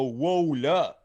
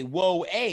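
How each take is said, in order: First: "Whoa, la" with "la" as a falling "luh"; French-lesson model. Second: "a" said as English "hey", rising; English "Whoa, a". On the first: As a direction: punch "Whoa", then drop onto a short "la". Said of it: "if I can give you a lesson". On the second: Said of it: "If instead of you say". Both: Shown as a demonstration.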